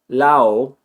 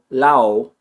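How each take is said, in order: First: The d sound is dropped completely. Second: The same.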